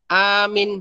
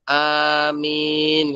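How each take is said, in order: First: Only the first vowel is long. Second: Both the first and second vowels are long. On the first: The speaker calls it wrong. "yang panjangnya hamzahnya saja" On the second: The speaker calls it right. "yang panjang hamzah sama mimnya ya"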